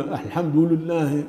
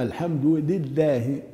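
First: "الحمد لله" slowly with u on the first lam, "al-hamdu lullah"; lam with damma. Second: "الحمد لله" slowly with i on the first lam, "al-hamdu lillah"; lam with kasra. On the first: Teacher demonstrating the mistake, first lam said as "lu". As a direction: let the u of "الحمد" spill onto the lam of "لله". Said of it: "ضم اللام الأولى". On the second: Teacher correcting learners, first lam said as "li". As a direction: keep a clear "li" opening "لله". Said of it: "لابد من كسر". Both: Shown as a demonstration.

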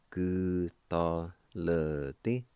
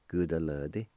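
First: "Gu ta le di" slow, syllables held and separated; syllable-by-syllable pronunciation. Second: Said in the usual way. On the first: Shown as a demonstration. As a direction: draw out each syllable of "Gu ta le di". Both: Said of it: "it's pronounced like this".

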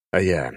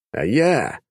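First: Said in the usual way. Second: Questioning. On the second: Acted.

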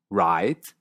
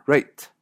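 First: American "write". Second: "rate", ei vowel, slow; Canadian write. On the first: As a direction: open ai in "write". ("write" estadounidense) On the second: ("write" que suena a "rate") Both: Shown as a demonstration. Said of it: "suena rate".

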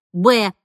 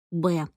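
First: Said in the usual way. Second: Soft, lower Б; hushed little Б, still voiced; quiet. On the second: A narrator's reading. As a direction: say Б softly under the voice. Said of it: "тихо произнесла Дана".

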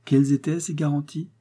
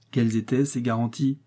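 First: Higher, insistent asking; wife repeats her question, insisting. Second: Said in the usual way. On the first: Acted. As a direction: press him for the answer. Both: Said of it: "Sa femme dut le lui redemander".

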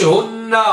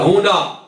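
First: هن said as "hunnaa", leaning long on a doubled n; u vowel, doubled n. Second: هنا said as "hunaa", with a light single n; u vowel, single n. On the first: Teacher showing the wrong form, هن as "hunnaa" with doubled n. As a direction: say هن as "HUN-naa". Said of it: "ما قلناش". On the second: Teacher giving the correct form, هنا as "hunaa". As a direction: say هنا as "hu-NAA". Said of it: "بضم الهاء". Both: Shown as a demonstration.

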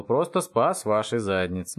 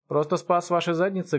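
First: Drawn out for emphasis; slow smug repeat. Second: Said in the usual way. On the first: Acted. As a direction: spell out your heroics slowly. Повторяет медленно, с нажимом. (медленно, с нажимом)

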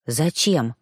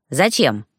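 First: Said in the usual way. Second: Low creaky question. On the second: A narrator's reading. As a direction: rasp out the question. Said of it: "очень скрипучим голосом".

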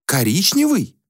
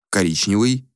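First: High, puzzled echo of the word; a prince baffled by a colour; surprised repeat. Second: Said in the usual way. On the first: Acted. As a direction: repeat it as if it's absurd. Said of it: "удивлённо повторил принц Аксиус". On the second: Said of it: "Коричневый? удивлённо повторил".

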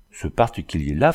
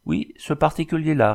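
First: Contemptuous. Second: Higher, lightly amused reply; smiling tone. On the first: Dragoon sneering about the Indian, contemptuous. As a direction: say it with a disdainful pout. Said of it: "avec une moue méprisante". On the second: Engineer answering the scornful dragoon, smiling. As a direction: answer with a smile in the voice. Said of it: "répondit l'ingénieur d'un ton souriant". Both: A narrator's reading.

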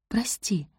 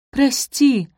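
First: Quiet, gentle sorry; soft apology. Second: Loud, high blurted sorry; blurted apology. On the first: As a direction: say it softly, almost lost. Only word she can find. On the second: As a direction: blurt it out at once. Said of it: "выпалила Софи". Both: Acted.

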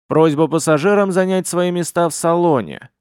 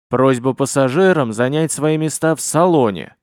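First: Hard metallic computer voice; flat, stern ship computer announcement; booming metallic robot. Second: Louder metallic computer voice; turned-up robotic announcement; booming metallic robot. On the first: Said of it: "жёсткий металлический голос". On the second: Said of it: "она прибавила громкости". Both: A narrator's reading.

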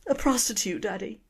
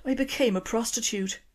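First: A hammed-up tearful Irish confession; tearful Irish daughter repeating her confession; mock crying daughter. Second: Irish daughter confessing to her dad. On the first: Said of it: "Girl crying again". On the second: Acted. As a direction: own up in a small Irish voice. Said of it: "excuse the accent".

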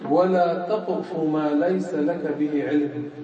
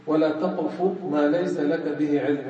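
First: Slow, measured quoting of the verse; Quran recitation. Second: Said in the usual way. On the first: Shown as a demonstration. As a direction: recite the verse slowly and solemnly. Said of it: "الله تعالى قال". (تلاوة آية ببطء ووقار)

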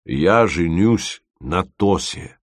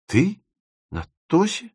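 First: Slow, measured declaration; solemn announcement. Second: High, rising disbelief; astonished questioning. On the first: Dima tells his friend of the wedding, solemn. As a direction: announce it weightily, word by word. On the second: Timofeev hears of Dima's wedding, astonished. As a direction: echo it as two stunned questions. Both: A narrator's reading.

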